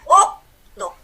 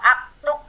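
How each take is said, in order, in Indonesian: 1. Kata itu diawali vokal u. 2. Kata itu diawali vokal a. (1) "kalau dia dhammah, maka dia juga dhammah" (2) "Kalau aktub nanti sama dengan fi'il mudhari"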